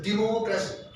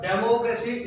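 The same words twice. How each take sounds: First: Democracy starting with 'di'; corrected pronunciation. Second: Democracy starting with 'dem'; wrong pronunciation shown. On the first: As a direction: model democracy with a 'di' opening syllable. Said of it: "it's a democracy". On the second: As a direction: show the mistaken 'DEM' opening of democracy. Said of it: "It's not democracy". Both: Shown as a demonstration.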